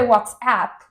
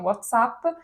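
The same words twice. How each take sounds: First: It uses an English sound foreign to Italian. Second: It uses only ordinary Italian sounds. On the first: This is how it would properly be said. "si direbbe WhatsApp, però questo suono non l'abbiamo" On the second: This is how Italians actually say it. "quindi diciamo WhatsApp"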